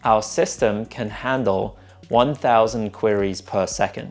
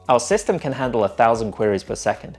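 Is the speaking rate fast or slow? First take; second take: slow; fast. First: The sentence is spoken at a slow rate. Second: The sentence is spoken at a fast rate. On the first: The speaker calls it right. "the second example, I'm just slowing down the syllable rate" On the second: The speaker calls it wrong. "in the first example, I'm speaking quite quickly"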